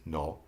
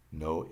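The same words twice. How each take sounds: First: Spanish "no" with a pure O, no English glide. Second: Said in the usual way. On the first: Shown as a demonstration. Teacher translating for learners, Spanish pronunciation of "no". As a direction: hold the O in "no" without sliding to OO. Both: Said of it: "notice when I pronounce no".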